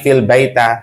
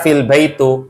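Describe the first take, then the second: First: The last word ends with an a vowel. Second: The last word ends with an u vowel. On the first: "apalagi fil baita, tidak boleh" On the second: "jangan baca fil baitu"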